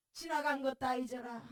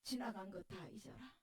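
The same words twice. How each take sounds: First: 지나간 stressed at normal level; old pastor insisting she let go, firmer; firmer repeat. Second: Soft, lower comfort with 다 leaned on; old pastor hugging a weeping woman, soft; gentle comfort. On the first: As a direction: repeat 지나간 것 다 잊어라 with weight on 지나간. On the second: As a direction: say 지나간 것 다 잊어라 softly as an old pastor consoling. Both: Retold or imitated. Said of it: "목사님이 나를 끌어안고".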